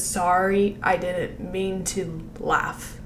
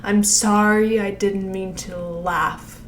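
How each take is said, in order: First: Slow lip-sync demo. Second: Very slow, syllables spaced out; slow lip-sync demo. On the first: Coach showing the big pop, slowly. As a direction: pop "Sorry", then slow the rest. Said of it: "pop when she says". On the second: Coach slowly demonstrating the line. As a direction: draw out each sound. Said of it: "make sure it's like". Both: Shown as a demonstration.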